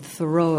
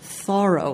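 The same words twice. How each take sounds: First: The stress is on the second syllable. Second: The stress is on the first syllable. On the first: The speaker calls it wrong. "He would always correct you if you said Thoreau" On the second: The speaker calls it right. "like borrow"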